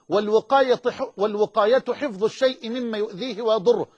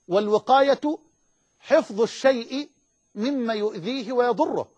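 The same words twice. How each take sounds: First: It is spoken at a normal pace. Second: It is spoken slowly and deliberately.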